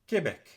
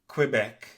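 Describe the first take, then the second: First: It is said with French pronunciation, QU like K. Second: It is said with English pronunciation. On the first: "in French, you say" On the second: "In English, you say"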